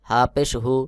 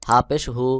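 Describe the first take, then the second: No difference in how they are said.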